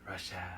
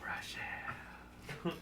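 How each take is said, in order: First: It is said in a plain voice. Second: It is said in a sexy voice.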